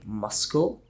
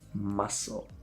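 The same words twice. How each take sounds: First: A K sound is pronounced in the middle. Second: No K sound is pronounced in the middle. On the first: The speaker calls it wrong. "You might be tempted to say muscle, but no" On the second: The speaker calls it right. "the C is completely invisible to your ears"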